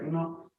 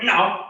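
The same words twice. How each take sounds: First: It is said calmly but firmly. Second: It is said aggressively.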